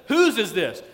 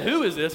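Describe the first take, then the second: First: "Whose" hit high and loud; "Whose" pushed up as a pointed question; stress on Whose. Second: Said in the usual way. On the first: Shown as a demonstration. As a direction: punch the word "Whose" with intrigue. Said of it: "He says, "Whose is this?". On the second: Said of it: "he doesn't say".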